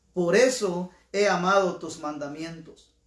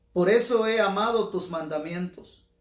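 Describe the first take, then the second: The two takes are said the same way.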